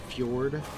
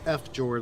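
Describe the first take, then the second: First: The F blends straight into the word. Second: The F is sounded separately before jord. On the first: The speaker calls it right. "Pretty sure that's the right pronunciation there" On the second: The speaker calls it wrong. "It's not F Jord like some people say"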